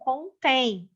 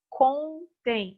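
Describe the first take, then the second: First: The stress is on the last syllable. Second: The stress is on the first syllable. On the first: It contains something. "a posição da sílaba tônica recaiu nessa primeira, de trás para frente" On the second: They tell something. "Verbo contar"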